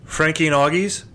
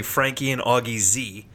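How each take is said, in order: First: Said in the usual way. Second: "Augie Z" ending in a spoken letter zee; Z as a separate letter. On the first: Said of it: "with a Z, not an S". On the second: Shown as a demonstration. Host explaining the restaurant's name, "Augie Z" with zee said separately. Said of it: "It's actually".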